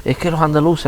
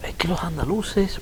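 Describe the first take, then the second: First: Mock Madrid snob. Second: Higher, slow, soft put-on snooty voice; mocking Madrid snob. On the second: Retelling how Madrid people mocked his accent, high slow sneering imitation. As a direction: mimic a condescending Madrileño sneering at Andalusians. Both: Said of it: "ellos lo decían de otra forma que yo no sé decirlo".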